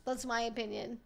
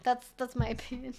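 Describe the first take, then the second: First: Said in the usual way. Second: Repeating it, cracking up mid-line; laughing. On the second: Real, not acted. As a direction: laugh through your own punchline.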